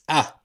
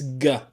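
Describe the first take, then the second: First: It starts with a catch in the throat. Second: It starts with a hard g sound. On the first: "like alif and uh, hamza" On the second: "like a G in girl"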